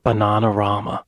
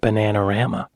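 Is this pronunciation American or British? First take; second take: British; American. First: It is said in a British pronunciation. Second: It is said in an American pronunciation. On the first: This is how the narrator says it. "he's going to pronounce it Bananarama" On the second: This is how the commenter would say it. "I would have said Bananarama"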